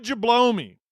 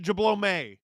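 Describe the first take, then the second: First: Jablome ending in "mee". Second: Jablome ending in "may", as if accented. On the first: Streamer reading out a gifter's name, Jablome ending in a long ee. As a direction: say Jablome as "juh-BLOW-mee". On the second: Streamer second-guessing a gifter's name, Jablome ending in "may". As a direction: say Jablome as "juh-blow-MAY". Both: Shown as a demonstration. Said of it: "Is there an accent?".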